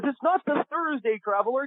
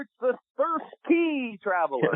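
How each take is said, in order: First: "Thursday" said clearly as the wrong title, in a very high imitated voice; very high voice, leaning on "Thursday" as the mistake; Brian correcting. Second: "Thirsty" stressed and drawn out slowly as the right title, in a high voice; slow, high, hitting "Thirsty" hard; Brian correcting. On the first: Producer correcting Kevin's mishearing of "Thursday", high imitated voice. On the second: Retold or imitated. Producer insisting the show is "Thirsty", slow high imitated voice. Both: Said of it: "And he speaks like this".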